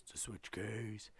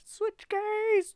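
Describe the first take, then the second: First: Low, soft answer; quiet low echo of a catchphrase. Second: Very high, loud falsetto; piercingly high playful call; high squawked catchphrase. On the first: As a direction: drop it down low in reply. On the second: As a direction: shout it way up high. Catchphrase again, high take. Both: Pretend.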